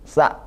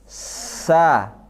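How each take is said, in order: First: The consonant has no whistling hiss. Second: The consonant has a strong whistling hiss. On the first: The speaker calls it wrong. "itu nggak ada sofirnya" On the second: The speaker calls it right. "Kalau sin, sa"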